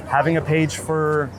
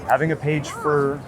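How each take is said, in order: Both takes have the same delivery.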